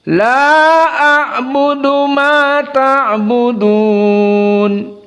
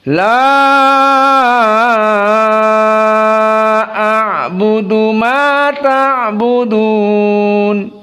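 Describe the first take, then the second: First: The first vowel is held short. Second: The first vowel is held very long. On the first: "Hanya dua harokat" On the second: "Karena keduanya dalam keadaan al-isba"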